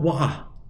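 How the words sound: It is spoken in a British accent. "Orang U K mungkin bilang wah gitu"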